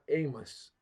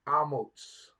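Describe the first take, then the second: First: The name ends with a plain s sound. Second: The name ends with a ts sound. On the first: The name means burden. The speaker calls it wrong. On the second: The name means strength. The speaker calls it right. "His name is really Amos with a Sade Sophie"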